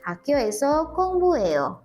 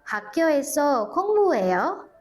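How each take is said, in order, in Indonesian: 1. Nada turun di akhir. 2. Nada naik di akhir. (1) "Nadanya jadi turun kalau misalnya kita menjawab" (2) "gimana kalau kita merubah menjadi pertanyaan?"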